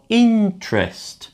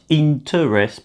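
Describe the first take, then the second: First: The middle vowel is reduced or dropped. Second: The middle vowel is fully pronounced. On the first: The speaker calls it right. "but more interest" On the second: The speaker calls it wrong. "not so much interest"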